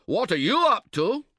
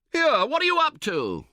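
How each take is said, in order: First: High, loud snappish comeback; retorting. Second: High, loud indignant call across the tent. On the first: Tentmate retorts to the shouting camper, high and loud. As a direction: throw the question straight back at him. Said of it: "he retorts". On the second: Camper calls out to his tentmate spoiling the pitch, loud and high. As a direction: yell at him over the flopping canvas. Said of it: "you call out". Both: Acted.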